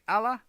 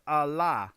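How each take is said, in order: First: "Allah" as AL-uh, flat A up front; checking pronunciation. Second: "Allah" as uh-LAAH, drawn-out second syllable; alternative pronunciation. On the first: Streamer trying a viewer's name, "Allah" as AL-uh. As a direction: say "Allah" with a short "a" as in "pal", ending "uh", questioning. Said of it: "am I saying it right?". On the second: Streamer offering a viewer another reading, "Allah" as uh-LAAH. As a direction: say "Allah" slowly, weak start, long open "ah" at the end. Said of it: "Is it the two syllables or one?". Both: Shown as a demonstration.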